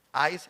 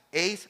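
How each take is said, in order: First: "ais" said as in English, starting on an AH vowel; English-style pronunciation. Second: "Eis" said as in Spanish, starting on an E vowel; Spanish-style pronunciation. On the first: Preacher showing the congregation a Greek word, "ais" pronounced English-style with an AH-I glide. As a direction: say "ais" the English way, rhyming with "ice". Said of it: "si la pronuncia en inglés".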